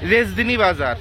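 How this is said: The name is said in a clipped regional pronunciation.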